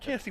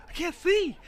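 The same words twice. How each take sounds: First: Fading holler. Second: High, loud holler of "I can't see"; loud pitched-up panicked holler. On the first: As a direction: let the second "can't see" drop back from the yell. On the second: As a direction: yell "see" out blind after the finish. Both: Retold or imitated. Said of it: "And he's just hollering".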